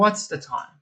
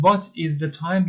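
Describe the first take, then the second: First: "what's" run into one syllable; contracted form. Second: "what is" kept as two words; full form. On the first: Teacher asks the time in short form, "what's" contracted. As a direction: join "what's" into one word, ending in ts. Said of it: "بگیم what's the time". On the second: Teacher asks the time in long form, "what is" uncontracted. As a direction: sound the "is" separately in "what is". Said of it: "به جای اینکه بگیم". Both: Shown as a demonstration.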